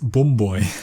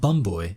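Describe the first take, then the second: First: The vowel in bum has a northern English sound. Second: The vowel in bum has a standard southern sound. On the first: "in the north, they pronounce their uh sound uh" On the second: "it's not bum boy"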